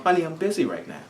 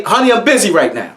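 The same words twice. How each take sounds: First: Much softer, kind and patient; gentle. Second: Curt. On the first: Parent looking up kindly at daughter, much softer. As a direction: say it softly so she feels fine. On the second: Parent not looking up at daughter, curt and impatient. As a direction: brush her off without looking up. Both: Retold or imitated. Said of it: "That tone".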